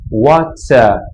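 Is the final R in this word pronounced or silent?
silent. The final R is silent; the vowel is lengthened. This is the British way of saying it. "em inglês britânico, em vários casos, você não pronuncia o R diretamente, você só alonga a vogal"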